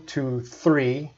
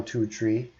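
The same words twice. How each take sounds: First: "three" with a clear th sound; now say "three" properly with th; correct three. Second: "tree" with t instead of th; Newfoundland tree. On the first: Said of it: "I want you to". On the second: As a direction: say "two, tree" as locals would. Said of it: "it might be good to say one". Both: Shown as a demonstration.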